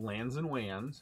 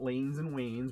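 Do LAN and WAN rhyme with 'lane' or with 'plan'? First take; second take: plan; lane. First: The vowels sound like the vowel in 'plan'. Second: The vowels sound like the vowel in 'lane'. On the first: The speaker calls it right. "that's how we pronounce it" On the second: The speaker calls it wrong. "Not lanes and wanes"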